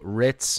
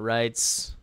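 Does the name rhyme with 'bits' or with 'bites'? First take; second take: bits; bites. First: The name rhymes with 'bits', like the cracker. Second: The name rhymes with 'bites'. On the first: The speaker calls it right. "good luck to you, Ritz" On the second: The speaker calls it wrong. "not Rites"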